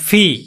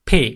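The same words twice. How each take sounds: First: The sound is a lip-and-teeth f sound. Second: The sound is a puff from both closed lips. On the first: The speaker calls it wrong. "Not ফি" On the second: The speaker calls it right. "Normal"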